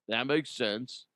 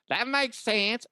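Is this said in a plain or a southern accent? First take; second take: plain; southern. First: It is said in a plain, unmarked accent. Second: It is said in a southern accent.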